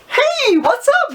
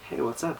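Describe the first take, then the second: First: The greeting is loud and highly energetic. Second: The greeting is low-energy and monotone. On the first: It clashes with the listener's tired mood. The speaker calls it wrong. "They're gonna be like, oh, dude, this is too early for me" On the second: It matches the listener's tired mood. The speaker calls it right. "You've now mimicked their level"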